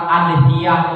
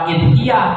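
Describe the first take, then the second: First: The word begins with an a vowel. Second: The word begins with an i vowel. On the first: "bukan adhiyah" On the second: "bukan idhiyah"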